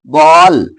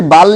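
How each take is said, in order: First: "बॉल" with a rounded open ऑ, not बाल; ball as बॉल. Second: "बाल" with a flat आ, named as wrong. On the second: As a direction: contrast the flat "बाल" with "बॉल". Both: Shown as a demonstration. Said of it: "इसे बाल नहीं बोलेंगे".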